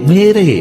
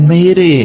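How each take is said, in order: No difference in how they are said.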